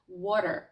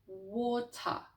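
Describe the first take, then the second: First: The t is a quick, light flap, not explosive. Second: It is said slowly with a full, explosive t. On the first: "з дуже швидким звуком Т, але без вибухового ефекту" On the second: "спочатку дуже повільно з традиційним звуком, вибуховим звуком Т"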